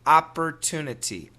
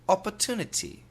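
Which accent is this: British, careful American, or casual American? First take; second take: careful American; British. First: Careful, fully articulated American accent. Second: Imitated London British accent. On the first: "Perfect American pronunciation" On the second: "I will try the London accent in the U K"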